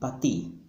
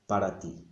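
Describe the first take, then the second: First: The first word is shortened to one syllable. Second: The first word is said in full, two syllables. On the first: This is casual, fast everyday speech. "what you will hear on the streets" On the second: This is the standard written form. "When we write, of course, we write para mí, para ti"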